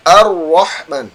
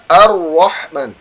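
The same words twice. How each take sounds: First: The r is rounded and sounds like w. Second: The same.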